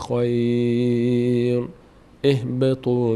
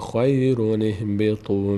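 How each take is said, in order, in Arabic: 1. يوجد وقف بعد الكلمة الأولى. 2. الكلمتان متصلتان بدون وقف. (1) "این یک حالت" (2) "حالت دوم حالت وصله"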